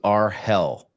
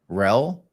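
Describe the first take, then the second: First: It is said as two syllables. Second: It is said as one syllable. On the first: "versus R hell" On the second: "pronounce it rel"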